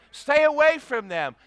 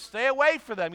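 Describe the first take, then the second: First: Loud, high, hammered warning; emphatic warning. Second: Said in the usual way. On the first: Acted. Pastor warning young people off unbelievers, loud. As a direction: bark it at them.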